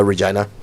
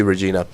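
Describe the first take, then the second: First: Regina said re-JYE-na; Regina with "eye". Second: Regina said re-JEE-na; long "ee" in the middle of Regina. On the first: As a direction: middle of Regina rhymes with "eye". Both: Shown as a demonstration. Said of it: "Is it Regina or Regina?".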